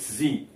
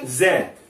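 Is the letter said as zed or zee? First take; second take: zee; zed. First: It is said the American way, as zee. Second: It is said the British way, as zed.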